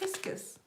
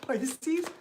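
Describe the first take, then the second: First: The word ends with a short 'kus' sound. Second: The word ends with a long 'seez' sound.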